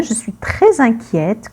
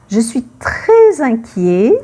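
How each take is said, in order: First: Inquiète said with an open è and a clear final t; the feminine form inquiète, final t sounded. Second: Inquiet said with no final t, ending on an open e; the masculine form inquiet, final t silent. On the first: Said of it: "quand c'est une femme". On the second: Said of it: "quand c'est un homme". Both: Shown as a demonstration.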